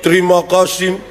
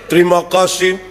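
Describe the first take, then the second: No difference in how they are said.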